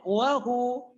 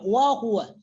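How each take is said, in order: First: The phrase ends on a long 'u' vowel. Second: The phrase ends with a full 'wa' syllable. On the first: The reader stops on this word. "cara wakafnya, cara membacanya wahu" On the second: The reading continues without stopping. "Kalau kita baca wasal, ini dibaca semua"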